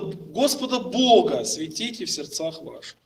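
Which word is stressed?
Господа Бога. The stress falls on the words Господа Бога. "Он сделает ударение на слово Господа Бога"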